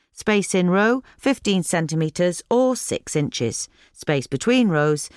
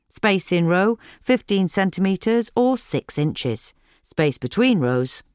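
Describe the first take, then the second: No difference in how they are said.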